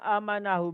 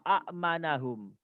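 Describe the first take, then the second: First: The first vowel is long, with no glottal stop. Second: A short vowel is followed by a glottal stop. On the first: This is the form as read. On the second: This is the underlying original form.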